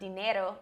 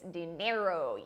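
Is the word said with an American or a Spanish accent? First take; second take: Spanish; American. First: It is said with a native Spanish accent. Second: It is said with an American English accent. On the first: "It's not dinero" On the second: "this nice gringo accent that we use"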